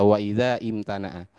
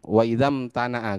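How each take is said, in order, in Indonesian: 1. Bunyi i dibaca sebagai awal yang terpisah. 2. Kata-kata itu menyambung tanpa bunyi i. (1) "gak usah" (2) "Jadi bacanya langsung"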